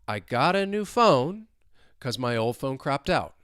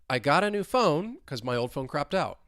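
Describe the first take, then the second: First: The sentence is spoken at a slow pace. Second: The sentence is spoken at a fast pace. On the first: "let's say it twice slowly" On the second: "let's say it faster at more of a normal speed"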